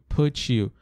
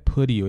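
First: The t in put sounds like t. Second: The t in put sounds like r.

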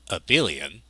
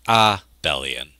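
First: The word follows the common English pronunciation. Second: The word follows the Norwegian pronunciation of Abel. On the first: "most English speakers will pronounce this as abelian" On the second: "this word should probably be pronounced abelian"

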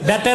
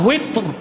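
First: The word begins with a b sound. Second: The word begins with a w sound. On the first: The speaker calls it wrong. "এটা আমাদের দেশের ইমাম সাহেবরা ভুল বলে" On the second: The speaker calls it right. "তো উচ্চারণটা কি হবে? উইত্র।"

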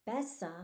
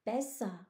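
The two takes are said the same way.

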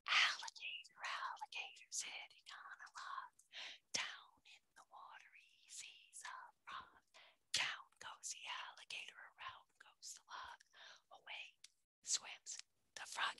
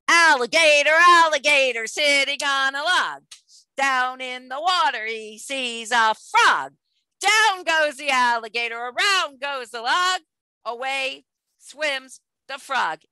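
First: It is said in a soft voice. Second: It is said in a loud voice.

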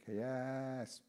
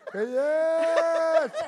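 First: The second syllable is drawn out. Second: The second syllable is drawn out very long. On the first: It happened many years ago. "something that happened 15 years ago, you say kayas" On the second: It happened very long ago. "something that happened 100 years ago, you go kayas"

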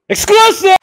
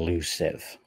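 First: The word is yelled loudly and energetically. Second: The word is said quietly, without yelling. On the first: "Okay, fine" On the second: "do you want me to yell it like I usually do?"

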